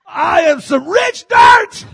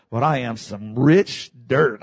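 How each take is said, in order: First: Slow, high, loud declaration; full-force, high-pitched proclamation; exultant preaching shout. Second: Said in the usual way. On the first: Real, not acted. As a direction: shout it out word by word. Same words repeated as a shout.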